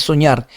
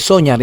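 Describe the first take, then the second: First: "soñar" stressed on ÑAR; stress on last syllable. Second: "soñar" wrongly stressed on SO; stress on first syllable. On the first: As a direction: land on the final ÑAR of "soñar". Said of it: "es soñar". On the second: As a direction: hit SO and drop ÑAR in "soñar". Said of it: "no es soñar". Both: Shown as a demonstration.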